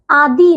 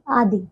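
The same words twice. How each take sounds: First: आदि said as "aadee"; wrong long ending. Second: आदि with a short final i; correct short ending. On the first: Teacher showing pupils the error, आदि with long ee. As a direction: stretch the final vowel of आदि. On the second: Teacher correcting pupils, आदि with short i. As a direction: keep the last i of आदि brief. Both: Shown as a demonstration. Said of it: "आदि नहीं".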